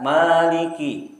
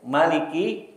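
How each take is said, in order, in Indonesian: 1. Vokal pertama panjang. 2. Vokal pertama pendek. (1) "yang maliki panjang" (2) "dibaca pendek"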